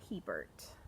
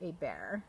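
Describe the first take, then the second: First: The name is pronounced the English way. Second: The name is pronounced the French way.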